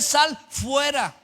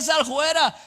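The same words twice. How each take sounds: First: It is said with a standard, careful pronunciation. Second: It is said with a rustic country pronunciation. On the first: The speaker calls it right. "se dice sal fuera" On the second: The speaker calls it wrong. "no se dice sal fuera"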